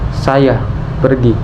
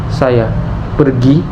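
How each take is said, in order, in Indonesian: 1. Kata saya yang mendapat tekanan. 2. Kata pergi yang mendapat tekanan. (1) "menekankan siapa pelakunya" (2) "menekankan tindakan yang dilakukan"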